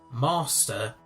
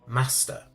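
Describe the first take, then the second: First: It is said in an RP accent. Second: It is said in a non-RP accent.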